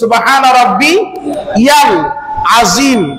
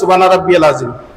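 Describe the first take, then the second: First: The throat sounds are clearly and fully pronounced. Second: The throat sounds are weak and run together. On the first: The speaker calls it right. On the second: The speaker calls it wrong.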